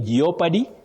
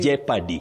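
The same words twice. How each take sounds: First: The O is pronounced in the word. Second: The O is silent in the word. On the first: The speaker calls it wrong. "Very common, but wrong" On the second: The speaker calls it right. "That O in those words is silent"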